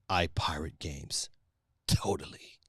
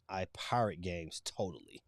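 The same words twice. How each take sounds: First: It is said in a sinister villain voice. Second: It is read in his normal voice.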